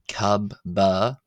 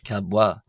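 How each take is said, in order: First: The middle consonants are both B sounds. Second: The middle consonants are a B then a W. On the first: The speaker calls it wrong. "pronounced not kabba" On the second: The speaker calls it right. "but kabwa"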